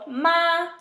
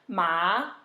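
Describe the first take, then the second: First: It is said with the first tone. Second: It is said with the second tone. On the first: It means mother. "first tone, means mother" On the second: It means hemp. "second tone, means hemp"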